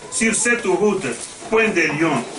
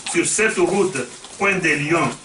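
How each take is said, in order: Both takes have the same delivery.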